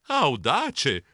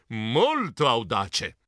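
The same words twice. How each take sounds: First: Said in the usual way. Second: Molto audace drawn out slowly, lower; slow emphasis. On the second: A narrator's reading. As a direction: linger on molto, slowly and low. Narrator savoring the word.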